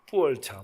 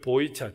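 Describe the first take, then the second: First: The name is said with Chinese sounds, as ppueolcha. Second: The name is said with Korean sounds, as boicha.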